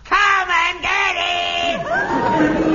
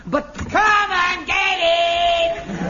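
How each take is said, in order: First: Booming shout on request. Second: Slow, loud, booming bellow; huge resonant parade-ground bellow; booming shout. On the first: Shown as a demonstration. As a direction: bellow it again, even bigger. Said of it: "Such resonance". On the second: Acted. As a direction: roar it out like a sergeant major. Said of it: "Say that again".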